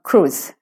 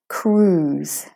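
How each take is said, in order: First: The vowel is short and clipped. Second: The vowel is long and drawn out. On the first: The speaker calls it wrong. "not cruise. It's not short" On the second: The speaker calls it right. "it's a long oo"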